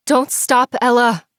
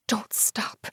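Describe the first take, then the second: First: Don't stop yelled high and loud to Ella. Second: Urgent breathless whisper. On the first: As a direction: yell Don't stop at her after falling. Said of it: "I yelled". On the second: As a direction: hiss it under your breath. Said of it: "Don't stop, Ella! I yelled". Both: Acted.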